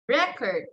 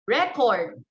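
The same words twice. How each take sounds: First: The stress is on the first syllable. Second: The stress is on the second syllable. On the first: It is used as a noun. "In noun, the stress there is on the first syllable" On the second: It is used as a verb. "if you want to use it as a verb"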